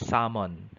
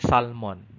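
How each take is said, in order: First: The L sound is silent. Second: The L sound is pronounced. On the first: The speaker calls it right. "It should be salmon" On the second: The speaker calls it wrong. "oftentimes we say salmon, but it's incorrect"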